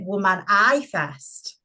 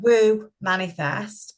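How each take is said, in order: First: It is split as woman plus i fest. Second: It is split as woo plus manifest. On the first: The name seems to be only for women. "some people do pronounce it Woman I Fest" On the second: The name is meant for everyone. "if you think of it as an Woo Manifest"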